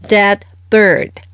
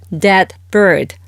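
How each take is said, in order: Both takes have the same delivery.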